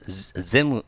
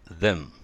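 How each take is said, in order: First: The word begins with a 'z' sound. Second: The word begins with a 'th' sound. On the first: The speaker calls it wrong. "ゼムじゃなくて" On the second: The speaker calls it right. "じゃなくてthem"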